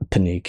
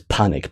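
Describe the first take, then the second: First: The word is said with Japanese-style sounds. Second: The word is said like the English word panic. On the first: The speaker calls it right. "I think it's pronounced like Panik in Japan" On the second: The speaker calls it wrong. "it looks like it says panic"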